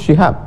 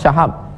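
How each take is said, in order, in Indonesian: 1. Vokal pertama dari nama itu adalah 'i'. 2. Vokal pertama dari nama itu adalah 'a'. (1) "yang betul Syihab" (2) "dibaca orang Syahab"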